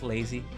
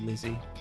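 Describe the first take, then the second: First: The first vowel sounds like the one in 'lay'. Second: The first vowel sounds like the one in 'lit'. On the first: The speaker calls it wrong. "I always pronounced it as lazy" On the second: The speaker calls it right. "the proper pronunciation is probably Lizzie"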